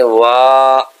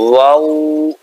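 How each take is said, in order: First: It ends in an open 'ah' with unrounded lips. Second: It ends in an 'oo' with fully rounded lips. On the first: The speaker calls it wrong. "लोग पढ़ते हैं वाह, ये गलत है" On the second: The speaker calls it right. "होंठ बॉल की तरह बिल्कुल गोल होते हैं"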